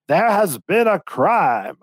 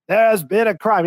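First: Slow, drawn-out mock announcement, a bit higher; imitating the guy's announcement. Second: A bit higher, clipped mock announcement at normal pace; robotic mock host. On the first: Game host announcing the crime to contestants, slow mock imitation. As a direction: ham it up like a robotic host, very slow. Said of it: "that guy's accent was". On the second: Host greeting arriving players, quick robotic imitation. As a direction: rattle it off like a Disney ride robot. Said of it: "he's like a robot".

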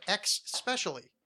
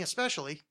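First: "ex-specially" with a wrong ks in the first syllable; slow, faulty "ex-specially"; mispronounced especially. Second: Said in the usual way. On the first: Retold or imitated. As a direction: say "ex-specially" with an X up front, drawn out. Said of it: "trying to correct his usage of". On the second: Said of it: "he started saying".

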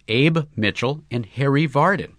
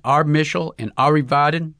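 First: "Abe Mitchell and Harry Vardon" in plain English, EIB MIT-chel, HA-ree VAR-den; correct names. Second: "Arb Mischel and Ari Vaden" said as Arb MI-shel, AR-ee VAH-den; Russian mispronunciation. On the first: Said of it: "said Cuthbert". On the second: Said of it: "your Arb Mischel, your Ari Vaden". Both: Acted.

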